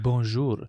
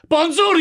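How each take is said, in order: First: It is said at a normal volume. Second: It is yelled loudly.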